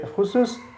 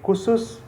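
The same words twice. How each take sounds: First: It starts with a rough kh sound. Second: It starts with a plain k sound. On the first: It is the standard form. "so it is the correct pronunciation" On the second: Listeners still understand it. "they will un- Indonesian people will understand it"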